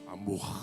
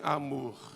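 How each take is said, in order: First: It is said in a low, deep voice. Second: It is said in a normal voice.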